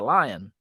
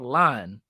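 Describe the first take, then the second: First: The word is said with two syllables. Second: The word is said as one syllable. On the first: It names the safari animal. "that's a lion. Did I do it?" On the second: It names the grocery store. "that is called a line"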